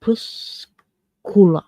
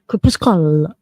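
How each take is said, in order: First: Crepuscula pulled apart syllable by syllable; careful, halting try at crepuscula; slow, broken down. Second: Crepuscula run together in one go, lower; quick, firmer stab at Crepuscula; said faster. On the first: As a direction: sound out crepuscula slowly, with gaps. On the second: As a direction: say Crepuscula as one joined word. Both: Shown as a demonstration. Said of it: "I'm sure it can be said faster".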